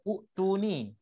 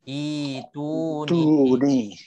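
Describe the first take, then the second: First: The second glottal stop is pronounced before the t. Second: A long vowel of two beats replaces the stop. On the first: The speaker calls it wrong. "kalau tak ada orang jelaskan, kita akan baca uktuni" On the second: The speaker calls it right. "Jadi bacanya itu ni dua harakat"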